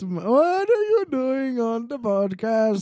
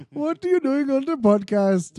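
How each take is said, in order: First: Put-on high, slow Cosby sliding toward Indian accent; Indian-sounding Cosby. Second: High mimicked comedian voice; Bill Cosby. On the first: Co-host teasing the other's impression, Indian-tinged Cosby accent. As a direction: draw it out with an Indian-accent lilt. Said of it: "so close to an Indian accent". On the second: Co-host mimicking the other's act, Bill Cosby impression. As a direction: imitate your co-host's impression, pitched right up. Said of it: "your Bill Cosby is like".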